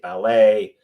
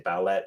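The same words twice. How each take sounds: First: The final T sound is silent. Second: The final T sound is pronounced. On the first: The speaker calls it right. "you say" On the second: The speaker calls it wrong. "You don't say"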